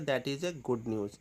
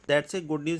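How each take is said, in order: First: 'That is' is said as two full words. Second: 'That is' is contracted to 'that's'.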